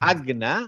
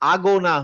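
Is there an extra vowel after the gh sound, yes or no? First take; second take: no; yes. First: The gh is a short push with no vowel. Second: The gh is followed by an added o vowel. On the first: The speaker calls it right. "গটা just just ধাক্কা হবে" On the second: The speaker calls it wrong. "কিন্তু আগো না হয় না"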